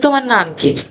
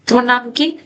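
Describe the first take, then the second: First: It is said flatly, like a statement. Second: It is said with a questioning tune. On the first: The speaker calls it wrong. "এটা এটা শুনতে কেমন লাগে?" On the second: The speaker calls it right. "তাহলে শুনতেই বোঝা যাচ্ছে একটা প্রশ্ন"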